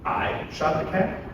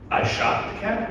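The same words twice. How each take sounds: First: The stress is on the word I. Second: The stress is on the word shot.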